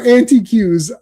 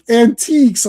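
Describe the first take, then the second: First: The word is said as 'anti-cues', in a London accent. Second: The word is said the ordinary way, 'an-teeks'. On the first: "that's such a great way to say it. I've never heard it that way" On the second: "And it's like antiques"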